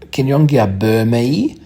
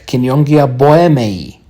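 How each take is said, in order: First: The name keeps its original German sound. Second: The name is read with Latin sounds. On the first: "refer to the names in the original form" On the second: "you read it uh, correctly in Latin"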